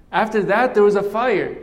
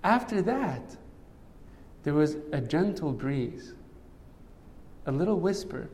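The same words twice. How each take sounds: First: Louder and higher, swelling with the fire; building to the fire. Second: Softer, dropping to a hush; soft like a gentle breeze; hushed for the whisper. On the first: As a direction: let the voice rise for the fire. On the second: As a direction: pull back to a gentle near-hush. Gentle breeze after loud fire. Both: Acted.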